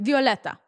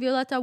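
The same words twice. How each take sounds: First: It is said with a Russian accent. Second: It is said with a plain accent.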